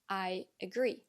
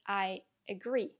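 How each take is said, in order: The two takes are said the same way.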